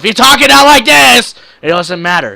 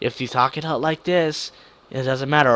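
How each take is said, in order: First: It is said very loudly, almost shouted. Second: It is said at a normal, calm volume.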